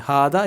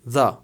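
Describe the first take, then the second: First: The first syllable 'ha' is kept. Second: The first syllable 'ha' is dropped. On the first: "हादा इसको बोलते हैं दो तरह से" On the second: "जब फ्लो में बोला जाता है ... हा को भी मिस कर दिया जाता है"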